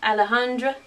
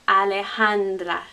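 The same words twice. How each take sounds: First: The name is said with an English accent. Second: The name is said with a Spanish accent. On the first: The speaker calls it wrong. "most of us English speakers would look at that and say" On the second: The speaker calls it right. "We have to keep the D and the R, the official sounds"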